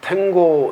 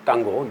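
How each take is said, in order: First: It starts with an aspirated t and 'ae' vowel. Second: It starts with a tense t and 'a' vowel. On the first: The speaker calls it wrong. "탱고는 뭐 이제 영어식 발음이고" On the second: The speaker calls it right. "땅고라고 해야 되겠죠"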